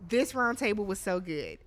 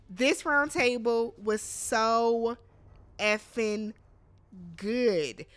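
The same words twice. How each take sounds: First: Said in the usual way. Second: Slow, with pauses around "effing" and "good"; emphatic gushing. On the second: Real, not acted. Fan raving to viewers about the round table, emphatic gushing. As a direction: stretch "so", then land "effing" and "good" as separate beats.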